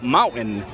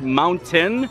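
First: The T in the middle is dropped. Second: The T in the middle is clearly pronounced. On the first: "it comes out mountain" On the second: "I do sometimes try to pronounce the T"

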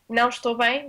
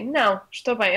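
First: There is no pause after não. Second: There is a pause after não.

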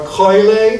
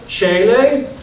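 First: It is said in the classical pronunciation. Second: It is said in a non-classical pronunciation.

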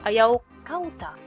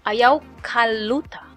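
First: No consonant comes before the ending. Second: An L sound comes before the ending. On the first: "Sometimes you shorten the kawuta to kauta" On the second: "People use interchangeable the L or W"

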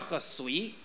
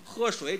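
First: It is said with a local dialect pronunciation. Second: It is said in standard Mandarin pronunciation. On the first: "老太太爱这么说" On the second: "喝水叫喝水"

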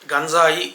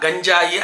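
First: The 'j' is pronounced as a dental sound. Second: The 'j' is pronounced as a palatal sound. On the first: The speaker calls it right. "దంత్యం పలకాలి" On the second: The speaker calls it wrong. "తాళవ్యం పలకూడదు"

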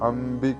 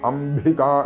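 First: The b sound is a plain, unforced b. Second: The b sound is forcefully over-articulated. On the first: The speaker calls it right. "വെറും ബാലൻ എന്നുള്ള എഴുതുന്ന ആ ബായാണ് ഇവിടെ. അംബിക എന്ന് തന്നെ ജപിക്കേണ്ടതാണ്" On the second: The speaker calls it wrong. "അക്ഷരസ്ഫുടതയ്ക്ക് വേണ്ടി അംബിക എന്നൊന്നും ചൊല്ലരുത്"

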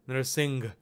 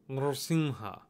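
First: The word ends in a g sound. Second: The word ends in an open vowel sound. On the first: The speaker calls it wrong. "Narsingh with a G sound" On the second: The speaker calls it right. "That's not the proper Sanskrit pronunciation"

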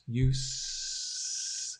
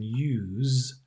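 First: The word ends with a voiceless s sound. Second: The word ends with a voiced z sound. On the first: It is the noun. "There's no voice. Use. It's a s" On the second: It is the verb. "It's a voiced z as a verb"

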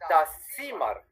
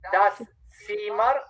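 First: The phrase is said quickly. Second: The phrase is said slowly. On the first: "rápido"

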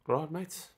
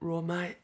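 First: It is spoken in a South African accent. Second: It is spoken in a London accent. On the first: "South African roll" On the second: "London accent"

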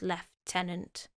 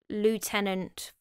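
First: It is said the British way, lef-tenant. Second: It is said the American way, loo-tenant.

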